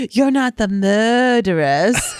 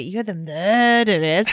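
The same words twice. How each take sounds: First: Put-on slow, laughing English accent line; mimicked English accent. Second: Mimicked English accent. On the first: Fan imitating the actors' English accent, slow and laughing. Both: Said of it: "The way that they said it".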